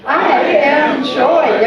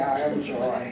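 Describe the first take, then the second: First: It is said in a joyful, smiling tone. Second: It is said flatly, without any joy.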